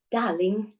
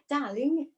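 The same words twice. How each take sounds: First: Tentative British accent attempt. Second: Higher-pitched playful British attempt; British accent. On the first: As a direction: have a careful go at a British accent. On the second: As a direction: try British, pitched up and amused. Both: Shown as a demonstration. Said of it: "very British with a British accent".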